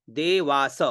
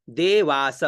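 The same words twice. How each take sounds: The two takes are said the same way.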